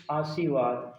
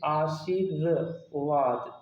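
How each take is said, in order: First: "आशीर्वाद" without the र, as "आसीवाद"; misspelt reading. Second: "आशीर्वाद" slowly with a separate र before वाद; correct reading, sounded out. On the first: Teacher reading out a wrong option, "आशीर्वाद" said as "आसीवाद". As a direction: drop the र from "आशीर्वाद". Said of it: "ये भी गलत है". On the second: Teacher giving the correct option, "आशीर्वाद" slow with the र clearly separate. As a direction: sound out आ-शी-र-वाद, half speed. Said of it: "ये correct हो जाएगा". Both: Shown as a demonstration.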